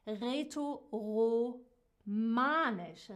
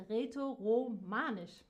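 First: Rätoromanisch stretched out slowly, syllable by syllable; slow careful pronunciation. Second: Said in the usual way. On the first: Shown as a demonstration. Teacher sounding out the language name for students, slow and careful. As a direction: spell out Rätoromanisch slowly, each syllable clear, for learners. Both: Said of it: "die sehr seltene Sprache".

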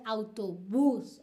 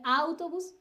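First: "autobús" stressed on the final "bús"; "autobús" with the weight at the end; stress on last syllable. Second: "autobús" stressed on its first syllable, "AU-tobus"; "autobús" misstressed at the front; wrong stress. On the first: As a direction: land on a long "bús" in "autobús". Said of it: "uno dice autobús". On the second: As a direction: punch the opening "au" of "autobús". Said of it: "Uno no dice autobús". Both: Shown as a demonstration.

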